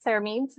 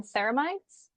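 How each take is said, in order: First: "ceramides" ending in a long-e "meedz"; pronunciation with "-meeds". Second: "ceramides" ending in a long-i "mydz"; pronunciation with "-mides". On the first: Unsure of the ingredient's name, offering "ceramides" pronounced with "-meedz". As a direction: say "ceramides" as SERR-uh-meedz, rhyming with "needs". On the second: Offering one way to say the skincare ingredient, "ceramides" pronounced with "-mydz". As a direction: say "ceramides" as SERR-uh-mydz, rhyming with "tides". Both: Shown as a demonstration. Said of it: "however you pronounce it".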